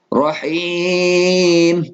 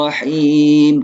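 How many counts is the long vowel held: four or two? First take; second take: four; two. First: The long vowel is held for four counts. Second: The long vowel is held for two counts. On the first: "Boleh empat harokat" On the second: "Dua harokat"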